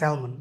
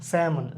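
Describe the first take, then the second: First: The word is said with an L sound. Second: The word is said without an L sound. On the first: The speaker calls it wrong. "স্যালমন কথাটা মানে খুবই বেশি প্রচলিত এবং এটা ভুল" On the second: The speaker calls it right. "এটাকে always স্যামন বলা হয়"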